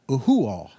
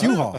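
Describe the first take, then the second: First: Every vowel is pronounced separately, Hawaiian-style. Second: It is said the ordinary English way. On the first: The speaker calls it wrong. "trying to make all these words sound Hawaiian" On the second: The speaker calls it right. "oh no, it's U-Haul"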